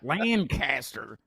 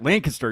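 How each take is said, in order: First: The name is said slowly and drawn out. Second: The name is said quickly and clipped. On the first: This is how people down south say it. The speaker calls it wrong. "so it takes like five minutes to say the word for us" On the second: This is how locals say it. The speaker calls it right. "You have to say it that way"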